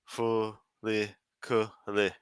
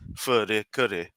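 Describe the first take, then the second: First: The name is said with clear L sounds. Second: The name is said with light R sounds. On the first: The speaker calls it wrong. "that's just stupid" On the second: The speaker calls it right. "there's no proper L sound in Japanese, so it become a re"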